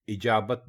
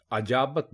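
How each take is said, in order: First: इजाबत starting with i, i-jaa-bat; correct pronunciation. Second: अजाबत starting with a, a-jaa-bat; common wrong form. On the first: Teacher giving the right form: इजाबत as i-jaa-bat. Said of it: "जेर डालकर आप इसको बोलेंगे". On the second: Teacher showing the mistake: अजाबत as a-jaa-bat. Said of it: "जो कि बिल्कुल गलत है". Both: Shown as a demonstration.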